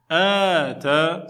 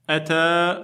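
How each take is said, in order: First: The first vowel is long. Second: The first vowel is short. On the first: It means to give. "ça veut dire donner" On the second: It means to come. "ça veut dire venir"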